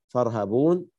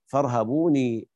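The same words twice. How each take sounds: First: Said in the usual way. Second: فارهبوني ending on a long ee after the n; Ya'qub's added ya. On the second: Shown as a demonstration. Teacher reading it as Ya'qub does, فارهبوني with final long ee. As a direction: add a drawn-out ee to the end of فارهبوني. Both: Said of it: "اقرأها يعقوب".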